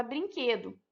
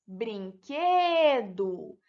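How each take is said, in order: First: Said in the usual way. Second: "brinquedo" very slowly as brin-que-do, "que" stressed; syllable by syllable. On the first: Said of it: "Outro exemplo é a palavra". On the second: Shown as a demonstration. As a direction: draw out "brinquedo", leaning on "que". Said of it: "Separando as sílabas".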